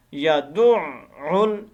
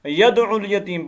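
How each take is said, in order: First: यदुउल slowly, ain held and doubled. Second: यदुउल यतीम said quickly without the doubled ain; wrong pronunciation. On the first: Teacher demonstrating the correct doubled ain, slow. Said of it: "ऐन मुशद्दद है". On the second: Teacher showing how students misread it, rushed. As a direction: skim यदुउल, no stress on the ain. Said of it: "ये बहुत गलती करते हैं". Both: Shown as a demonstration.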